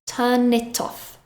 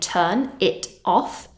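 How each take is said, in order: First: The three words run together as one. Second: The three words are said separately. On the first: The speaker calls it right. "almost sounding like one word" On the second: The speaker calls it wrong. "So instead of saying turn it off"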